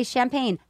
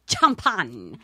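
First: Said in the usual way. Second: Champagne said "cham-PAHN", ch as in chop; Spanish-style pronunciation. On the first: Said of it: "I learned how to say". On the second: Shown as a demonstration. Showing off a newly learned word, champagne as Spanish "cham-PAHN". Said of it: "I learned how to say champagne".

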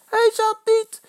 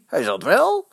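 First: Very high, loud denial; piercingly high yelled protest; shouting. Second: Raised supporters' retort; insistent shouted comeback; calling out. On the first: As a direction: shriek the denial back. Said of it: "schreeuwt Eddy". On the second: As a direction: call it back higher, contradicting. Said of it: "roepen de Vitessers". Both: A narrator's reading.

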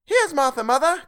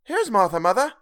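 First: Put-on much higher, louder children's cry; two excited little kids shouting it out. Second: Put-on higher, louder young girl calling out; a daughter announcing herself brightly; girl's voice. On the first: The young Cratchits shouting to their mother, much higher and louder. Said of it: "cried the two young Cratchits". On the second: Martha arriving home, calling to her mother in a higher, louder voice. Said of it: "said a girl". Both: A narrator's reading.

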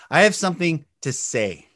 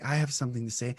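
First: Projected, clearly voiced statement; full volume. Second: Soft, low and timid-sized; quiet voice. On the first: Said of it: "The volume". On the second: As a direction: say it at very low volume. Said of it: "Do you speak like this". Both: Shown as a demonstration.

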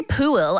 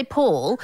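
First: Pool stretched into poo-ul; two-syllable POOL. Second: Pool as one smooth syllable. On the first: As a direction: say pool with an extra syllable before the L. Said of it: "but I don't say pool". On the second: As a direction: say pool without the extra vowel before L. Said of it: "I say pool". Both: Shown as a demonstration.

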